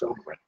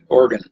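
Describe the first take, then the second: First: A long O is followed directly by g. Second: The first vowel is not followed directly by g. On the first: The speaker calls it right. "it's a long O, so and it's a G right after that" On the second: The speaker calls it wrong. "she kept wanting to call me Organ"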